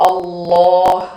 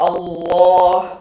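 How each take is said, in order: The two takes are said the same way.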